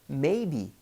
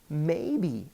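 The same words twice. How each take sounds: Both takes have the same delivery.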